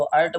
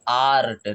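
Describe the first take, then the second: First: अर्ट with a short uh; wrong short-a version. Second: आर्ट with a long, open AA; correct long-aa version. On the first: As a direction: say अर्ट quickly, no long aa. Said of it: "क्या हम इसको अर्ट बोल रहे हैं". (छोटे अ से गलत "अर्ट") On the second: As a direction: hold the vowel in आर्ट. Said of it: "हम इसको बोल रहे हैं". (बड़े आ से साफ़ "आर्ट") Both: Shown as a demonstration.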